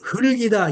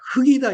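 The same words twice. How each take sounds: First: Both final consonants link into the next syllable. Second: Only the final k sound links onward. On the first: The speaker calls it right. "이렇게 읽어야 되는데" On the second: The speaker calls it wrong. "이렇게 읽게 되잖아요"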